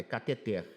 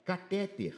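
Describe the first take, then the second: First: Cateter stressed on the final syllable TER; correct stress. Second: Catéter stressed on the middle syllable TÉ; wrong stress. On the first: Teacher correcting a mispronounced word, stress on the final syllable. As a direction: land cateter on its last syllable. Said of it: "tá errado, é cateter". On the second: Teacher quoting a mispronounced word to correct it, wrong middle-syllable stress. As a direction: say catéter with the weight on TÉ. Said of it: "tá errado". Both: Shown as a demonstration.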